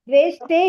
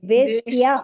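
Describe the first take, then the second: First: The word ends with a long 'e' sound. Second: The word ends with a 'ya' sound. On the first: The speaker calls it wrong. "ದ್ವೇಷ್ಟೇ ಇಲ್ಲ ಮಾತಾಜಿ" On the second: The speaker calls it right.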